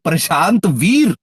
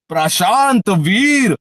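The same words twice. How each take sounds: First: The name is said in a plain, flat way. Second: The name is boomed like a dramatic ring announcement. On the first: The speaker calls it wrong. "ऐसे नहीं" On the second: The speaker calls it right. "जैसे Paul Heyman Brock Lesnar को announce करता था ना"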